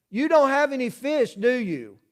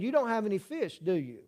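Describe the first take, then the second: First: "don't" pushed high with a rising tune; stress on don't. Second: Quiet knowing question. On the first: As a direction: lean into "don't" as a knowing question. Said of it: "You hear the question?". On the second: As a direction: say it softly, as if the answer were already known. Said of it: "in his question, there's really an answer". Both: Shown as a demonstration.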